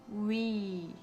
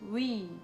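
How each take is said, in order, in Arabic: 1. يُمَدّ الحرف المُصوِّت ببطء شديد. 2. يُقال الحرف المُصوِّت بسرعة عادية. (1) "Wenn man ganz langsam spricht" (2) "Wenn man normal spricht"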